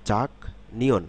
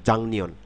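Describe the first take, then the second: First: The first syllable ends with a k sound. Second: The first syllable ends with an ng sound. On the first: The syllables are said separately. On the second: The syllables are joined in one word.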